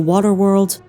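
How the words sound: It is said in an American accent.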